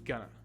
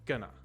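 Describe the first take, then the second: First: The words blend together and the T disappears. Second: The same.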